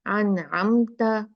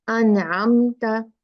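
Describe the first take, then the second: First: अनअमता with a short, clean न and no drag; correct light ghunna. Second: अनअमता with the nasal dragged out long and slow; mock the common mistake, holding the न; wrong way, overstretched ghunna. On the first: Teacher showing the right reading of अनअमता. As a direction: say it properly, nasal kept brief. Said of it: "लंबा नहीं करना है गुन्ना को". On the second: Teacher imitating students who misread अनअमता. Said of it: "बहुत ज्यादा लोग पढ़ते हैं". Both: Shown as a demonstration.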